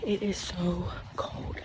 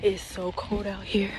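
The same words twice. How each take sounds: First: Slow, drawn-out shiver in the cold. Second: Breathy whisper, shivering from the cold. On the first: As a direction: drag it out, freezing. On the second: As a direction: whisper it through chattering teeth. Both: Real, not acted.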